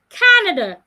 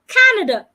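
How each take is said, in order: First: The stress falls on the first syllable. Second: The stress falls on the first syllable.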